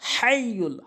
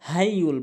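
First: The h is deep, from the middle throat. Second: The h is a light, ordinary h sound. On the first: The speaker calls it right. "হাটি হলকের মাঝখান থেকে" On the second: The speaker calls it wrong. "বড় হার জায়গায় ছোট হাইনে উচ্চারণ করে"

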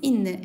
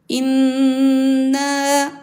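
First: The vowel is kept short. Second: The vowel is held long. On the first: The speaker calls it wrong. "şeklinde değil" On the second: The speaker calls it right.

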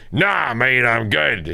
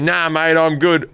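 First: It is said in a put-on character voice. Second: It is said in the speaker's ordinary voice. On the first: "I'll do it in the voice" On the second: "now I say"

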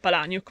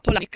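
First: The surname ends with a 'nyuk' sound. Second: The surname ends with a 'nick' sound. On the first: The speaker calls it wrong. "non si dice Palaniuk" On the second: The speaker calls it right. "ma Polanic"

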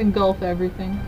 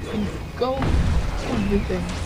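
First: It is said in an ordinary speaking voice. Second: It is said in an imitated game-character voice.

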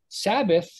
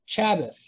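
First: The word begins with an s sound. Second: The word begins with a ch sound. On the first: "if you have a Sabbath" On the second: "now pronounce it as Chabbath"

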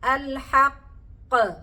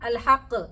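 First: The final q has a strong, heavy bounce. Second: The final q has only a light bounce. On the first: The speaker calls it right. "അൽ ഖൽഖലത്തുൽ കുബ്ര" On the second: The speaker calls it wrong. "നേരത്തെ പോലെ പറഞ്ഞു നോക്കിയാട്ടെ"

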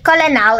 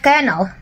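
First: It is said with three syllables, as spelled. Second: It is said with two syllables, like kernel. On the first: The speaker calls it wrong. "a couple of times I said colonel" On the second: The speaker calls it right. "instead of colonel"

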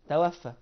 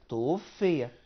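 First: The verb is voiced as an active form. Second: The verb is voiced as a passive form. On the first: The speaker calls it wrong. "يبقى انا غلط اقول توفى" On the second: The speaker calls it right. "نقول توفي"

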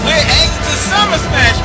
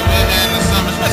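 First: It is said in a happy, lively way. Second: It is said in a flat, bored way. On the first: The speaker calls it right. "you're supposed to sound happy like" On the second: The speaker calls it wrong. "it sounds like"

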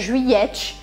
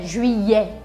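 First: The final t is pronounced. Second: The final t is silent. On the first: The speaker calls it wrong. "não é juillet" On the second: The speaker calls it right. "este T não se pronuncia no final da palavra"

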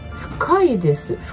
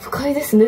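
First: The pitch rises on 'ka' and then falls. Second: The pitch rises and stays level after 'ka'. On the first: It is deep. The speaker calls it right. "だってイントネーション違うだけで。" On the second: It is unpleasant. The speaker calls it wrong. "不快ですねって伝わっちゃったのはやばいですね"

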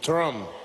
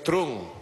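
First: The name is said with a different vowel sound. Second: The name is said the way its spelling reads. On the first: The speaker calls it right. "es Trump" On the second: The speaker calls it wrong. "me dice que no es Trump"

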